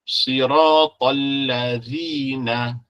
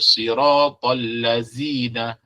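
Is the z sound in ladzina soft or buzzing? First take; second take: soft; buzzing. First: The z is a soft sound between the teeth. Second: The z is a sharp buzzing z sound. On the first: The speaker calls it right. "zal mesti keluar dari gigi" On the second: The speaker calls it wrong. "dengan zai, batal solat dia"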